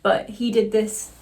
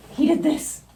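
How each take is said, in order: First: Said in the usual way. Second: "did" punched much higher; "he did this" with a high, excited "did"; emphatic repeat. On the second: Real, not acted. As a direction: stress "did" with a high pitch jump. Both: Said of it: "I have to really pronunciate".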